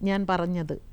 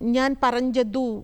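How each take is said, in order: First: The last word ends in a short, reduced vowel. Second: The last word ends in a full, clear u. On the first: It sounds like a native Malayalam speaker. The speaker calls it right. "നമ്മളെങ്ങനെയാണത് മലയാളത്തിൽ പറയുന്നത്?" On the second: It sounds like a non-native speaker. The speaker calls it wrong. "അപ്പോൾ അവർ ഞാൻ പറഞ്ഞതു എന്നിങ്ങനെ പറയും"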